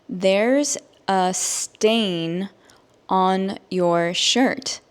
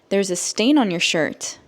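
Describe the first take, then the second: First: The sentence is spoken slowly. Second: The sentence is spoken at normal speed. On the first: "I will say it slowly so that you can understand" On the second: "at a normal native English speaker speed"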